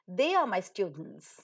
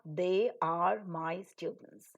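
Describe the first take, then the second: First: The first two words are merged into one syllable. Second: The first two words are said fully and separately. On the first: The speaker calls it right. "We normally say they are" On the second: The speaker calls it wrong. "not they are my students"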